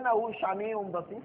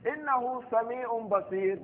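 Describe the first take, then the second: First: The word sami'un is said with an sh. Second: The word sami'un is said with a plain s. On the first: The speaker calls it wrong. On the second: The speaker calls it right.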